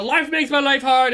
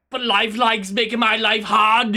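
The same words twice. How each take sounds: First: Said in the usual way. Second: Put-on loud Schwarzenegger-like accent creeping in; accidental put-on accent. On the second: Streamer explaining why plans may slip, drifting into a put-on accent. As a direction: slip into a half-Arnold accent. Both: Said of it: "went with an accent there".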